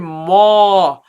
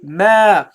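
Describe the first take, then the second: First: The syllable is said heavy and thick. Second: The syllable is said light and thin. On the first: The speaker calls it wrong. "Don't bring the air up. Don't say ma" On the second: The speaker calls it right. "Make it light"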